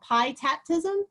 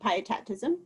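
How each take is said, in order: First: The start is a separate word, 'pie'. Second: The start blends smoothly like 'pietism'. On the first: Eating pie while tap dancing. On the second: It blends pietism and Anabaptism.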